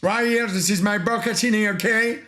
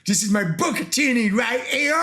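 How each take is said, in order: First: Put-on lost Italian accent. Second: Put-on Italian accent retry. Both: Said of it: "J'ai perdu mon accent italien".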